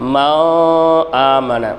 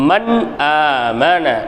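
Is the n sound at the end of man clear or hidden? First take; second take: hidden; clear. First: The n sound is partly hidden. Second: The n sound is pronounced clearly. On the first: The speaker calls it wrong. "எப்படி ஓதக்கூடாது அப்படின்னா" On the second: The speaker calls it right. "தெளிவாக ஓதணும்"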